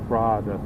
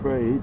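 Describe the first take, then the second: First: The name is said with Portuguese pronunciation. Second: The name is said with English pronunciation.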